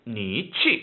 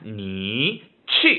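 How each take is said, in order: First: It is read fast with a shorter gap. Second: It is read at normal speed with a gap.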